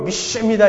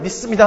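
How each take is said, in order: First: It is said in an exaggerated preacher's pronunciation. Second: It is said in an ordinary, plain way. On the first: The speaker calls it right. "저희 여의도 쪽 발음으로 믿습니다 이렇게" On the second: The speaker calls it wrong. "그냥 믿습니다 하면 안 되고"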